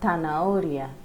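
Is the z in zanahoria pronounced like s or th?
th. The z is pronounced like English th. This is how it is said in Spain. "In Spain, we will say it as"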